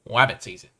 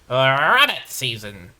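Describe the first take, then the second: First: A put-on cartoon voice turns the R into W. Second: A different put-on cartoon voice keeps a clear R. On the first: The speaker calls it wrong. "why am I impersonating Elmer Fudd" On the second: The speaker calls it right. "That's my best Daffy"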